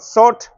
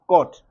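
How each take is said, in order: First: The word begins with an s sound. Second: The word begins with a k sound. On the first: The speaker calls it wrong. "It is not sot" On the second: The speaker calls it right. "it is cot"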